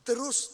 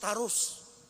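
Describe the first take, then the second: First: The first vowel is a schwa. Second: The first vowel is an open a.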